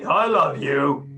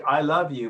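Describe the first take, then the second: First: "I love you" slow and flat, dragged out, not meant; drawn-out "I love you" that rings false; insincere I love you. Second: Said in the usual way. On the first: Shown as a demonstration. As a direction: say "I love you" slowly and lifelessly. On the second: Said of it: "but you say".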